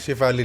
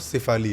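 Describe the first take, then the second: First: The name begins with a sh sound. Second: The name begins with an s sound. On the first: The speaker calls it wrong. "शिफाली नहीं है वो" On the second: The speaker calls it right. "सिफाली है"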